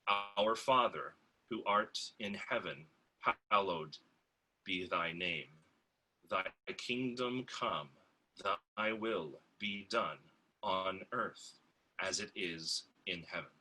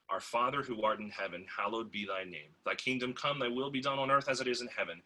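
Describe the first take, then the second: First: It is read slowly with careful articulation. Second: It is read at a normal conversational pace.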